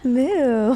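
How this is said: The moo is said in a seductive way.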